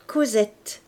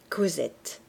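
First: Said in the usual way. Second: Lower, softer echo of the name; repeated softly. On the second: Shown as a demonstration. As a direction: say the name again under your breath, lower. (répéter «Cosette» plus bas et plus doucement, comme un écho) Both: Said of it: "Lisez Euphrasie".

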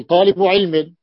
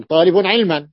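First: Said in the usual way. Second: طالب علما said as talibun ʕilman, nunation on both words; teacher shows the ungrammatical طالب علما, ending each word in -n; wrong form with nunation. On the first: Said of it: "قل طالب علم". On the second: Shown as a demonstration. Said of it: "لا تستطيع أن تقول طالب علم".

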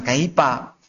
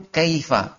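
First: Kaipa with a p in place of the f, the wrong way; Javanese-style kaipa. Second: Kaifa with a clear f sound, as Arabs say it; correct Arabic kaifa. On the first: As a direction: mimic the local p for f in kaipa. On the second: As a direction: say kaifa with a real f, not a p. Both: Shown as a demonstration. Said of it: "bukan kaipa".

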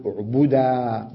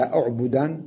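First: أعبدا as u'budaa, no n; pausal alif. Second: Said in the usual way. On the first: Shown as a demonstration. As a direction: say أعبدا slowly, long final aa. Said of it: "بالألف". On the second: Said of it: "لما أقف على".

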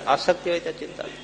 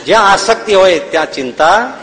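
First: Softer and faster, a throwaway; hushed rapid restatement; quick quiet repeat. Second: Rising stress on જ્યાં, said firmly; emphatic maxim. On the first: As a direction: rattle off આસક્તિ હોય ત્યાં ચિંતા થાય under the breath. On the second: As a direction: lean into જ્યાં and lift it. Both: Shown as a demonstration.

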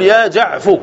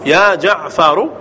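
First: جعفو cut after the ف, ending in u; shortened, damma moved. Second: جعفر in full, ending on a short u after the ر; full form, final damma. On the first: Teacher demonstrates the shortened name, جعفو ending in fu. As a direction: drop the final r and end جعفو on fu. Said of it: "فالضم ما ننقلها إلى الفاء". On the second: Teacher gives students the full vocative, جعفر ending in ru. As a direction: say جعفر slowly with the ر voweled u. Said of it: "البناء على الضم". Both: Shown as a demonstration.

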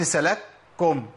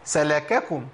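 First: "سلككم" as salak-kum, no vowel after the first k; slow wrong "سلككم" with a doubled k; silent first kaf. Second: "سلككم" as sa-la-ka-kum, every syllable apart; voweled first kaf. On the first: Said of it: "قلت سلككم". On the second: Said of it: "بس كاف مش ساكنة". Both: Shown as a demonstration.

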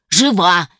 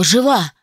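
First: Loud, insistent cry of Жива; angry yell of Жива; shouted. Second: Said in the usual way. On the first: Acted. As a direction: hammer Жива at him. Ghost yelling at doctor.

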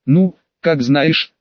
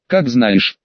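First: Slow, drawn-out mockery; mocking. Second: Said in the usual way. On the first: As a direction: stretch it out with a sneer. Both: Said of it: "в голосе послышалась издёвка".

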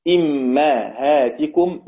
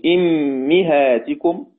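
First: إمهاتكم drawn out as "immahātikum", i on hamza, a on mim; kasra hamza, fatha mim. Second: أمهاتكم drawn out as "immihātikum", i on both hamza and mim; kasra on hamza and mim. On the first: Teacher showing al-Kisai's reading, إمهاتكم as slow "immahātikum". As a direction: say إمهاتكم very slowly, "im-ma-hā-ti-kum". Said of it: "والكسائي بكسر الهمزة وفتح الميم". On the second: Teacher showing students Hamza's reading, أمهاتكم as slow "immihātikum". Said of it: "حمزة بكسر الهمزة والميم". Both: Shown as a demonstration.

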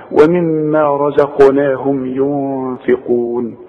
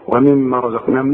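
First: Slow recitation with ومما hummed long; held ghunna. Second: ومما low and unheld, no ghunna; mistaken short m. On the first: Shown as a demonstration. Teacher models the right reading, long hum in ومما. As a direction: chant slowly, lingering on the m of ومما. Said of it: "ما دام عليها الشدة غنها". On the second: Retold or imitated. Teacher imitates what many people recite, short m in ومما. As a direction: skip the hum in ومما. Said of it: "زي ما بنسمع ناس كتير".

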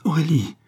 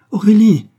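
First: Higher, pleading call of the name; distraught cry. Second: Very high, loud cry of the name; distraught shout. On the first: Distraught husband to his laughing wife, crying out. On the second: Distraught husband to his laughing wife, shouting. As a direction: shout her name, frantic. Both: A narrator's reading. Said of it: "s'écria Raoul éperdu".

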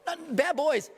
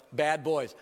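First: "Not bad boys." pitched much higher, NOT hit hard; emphatic correction. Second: Tossed-off "Bad boys." said lightly, dismissive; offhand verdict. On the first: Shown as a demonstration. Preacher correcting the casual reading, emphatic higher stress. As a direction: correct it firmly, punching "Not". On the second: Preacher mimicking readers who shrug off the apostles, offhand. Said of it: "We read past this stuff and go".

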